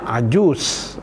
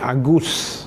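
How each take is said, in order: First: The word starts with a j sound. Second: The word starts with a hard g. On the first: This is the standard form. "patutnya ajus" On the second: This is how Egyptians say it. "kan dia jadi Agus"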